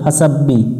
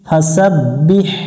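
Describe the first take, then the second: First: The word ends on a bare vowel. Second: The word ends with an audible h sound. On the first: The speaker calls it wrong. "এখানে অনেকজন ভুল করে ফাসাব্বি, খালি বি হবে না" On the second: The speaker calls it right. "বিহ"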